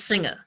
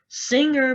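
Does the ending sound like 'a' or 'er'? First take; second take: a; er. First: The word ends with an 'a' sound. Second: The word ends with an 'er' sound.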